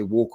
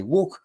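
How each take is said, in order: First: Said in the usual way. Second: Walk called out, high and rising; Walk, said as a bright dog command, pitch up; command cue. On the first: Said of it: "when you say". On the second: Shown as a demonstration. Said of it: "you pat your thigh and you say".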